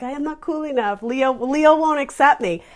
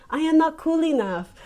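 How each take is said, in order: First: Put-on quoting the pianist in his accent, about Leo; imitated accent. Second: A light put-on accent, a bit higher; quoting the School of Rock pianist in his accent; imitated accent. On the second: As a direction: mimic the pianist's shy accent. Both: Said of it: "He has an adorable little accent".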